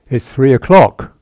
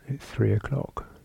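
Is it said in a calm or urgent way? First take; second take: urgent; calm. First: It is said with heightened urgency. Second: It is said calmly and plainly.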